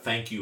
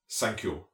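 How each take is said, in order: First: It is said in a plain English accent. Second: It is said in a German accent. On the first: "thank you is like" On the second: "the Germans, ... they don't have a TH"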